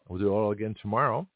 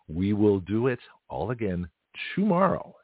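First: The sentence is spoken at a faster pace. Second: The sentence is spoken at a slower pace.

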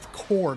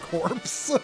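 First: The word ends on the r sound. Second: The word ends with a ps sound. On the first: The speaker calls it right. "that's pronounced core" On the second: The speaker calls it wrong. "not corpse"

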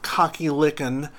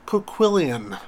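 First: The name sounds like the words 'cocky lickin'. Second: The name is said in its intended pronunciation. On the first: The speaker calls it wrong. "And not Cocky Lickin, as Ian actually says" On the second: The speaker calls it right. "That's how you pronounce that awful, awful name"

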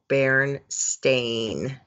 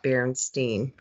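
First: The name ends with a 'stain' sound. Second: The name ends with a 'steen' sound. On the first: This is the spelling printed on the books. "it said Bernstein" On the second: This is the version she remembered. "not Bernstein"

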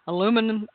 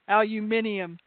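First: It is said with an American accent. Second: It is said with an English accent.

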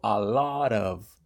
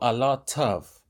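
First: American accent, the t sounds like a d. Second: Non-American style, with a clear t sound.

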